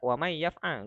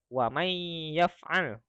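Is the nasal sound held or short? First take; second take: short; held. First: The nasal sound is short, not held. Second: The nasal sound is held a little longer. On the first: The speaker calls it wrong. "Jadi tidak wa may yaf'al, enggak" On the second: The speaker calls it right. "gitu ya"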